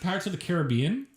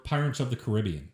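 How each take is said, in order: First: Caribbean as ka-ruh-BEE-un; first pronunciation. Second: Caribbean as kuh-RIB-ee-un; second pronunciation. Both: Shown as a demonstration. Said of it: "Do you pronounce it".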